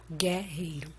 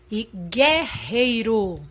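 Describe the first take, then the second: First: Said in the usual way. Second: Guerreiro drawn out slowly, gué stressed; stressed slow demo. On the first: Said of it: "como nós costumamos falar". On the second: Shown as a demonstration. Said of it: "Estou dando ênfase à sílaba gué". (guerreiro dito devagar com ênfase em gué)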